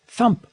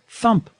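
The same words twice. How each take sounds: The two takes are said the same way.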